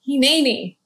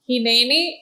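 First: It is said in a calm, ready tone. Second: It is said in a startled, surprised tone. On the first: He is simply saying he is present and ready. "Is he saying like Hineni, I'm here?" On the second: He is startled and confused by the call. "Or is he saying Hineni, what? What's going on?"

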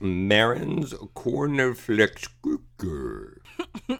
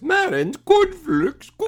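First: It is said in a normal voice. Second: It is said in a higher-pitched voice.

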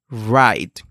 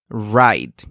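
No difference in how they are said.

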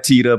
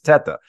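First: The name is said with a changed, Americanized vowel. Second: The name is said with its original Italian vowel. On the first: This is the pronunciation the family uses in America. "So we go by Tita" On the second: This is the original pronunciation of the name. "The correct pronunciation is Teta, obviously Italian"

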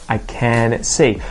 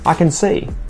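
First: The word can is said in full, unreduced. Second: The word can is reduced to a schwa. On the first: The speaker calls it wrong. "I would never say it like that" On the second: The speaker calls it right. "Because the word see is there, I would say"

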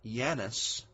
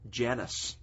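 First: The name begins with a Y sound. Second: The name begins with a J sound.

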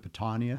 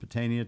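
First: The name has an Italian pronunciation. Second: The name has an American pronunciation. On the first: This is the fancier pronunciation adopted later. "sliding over to the Italian pronunciation" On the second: This is the older, everyday family pronunciation. "it's gone from Patania"

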